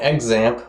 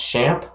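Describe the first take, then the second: First: The word does not begin with a 'ch' sound. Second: The word begins with a 'ch' sound. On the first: This is the speaker's habitual way of saying it. The speaker calls it wrong. "I call it Xampp" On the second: This is how the developers say it. The speaker calls it right. "I think it's actually pronounced Champ"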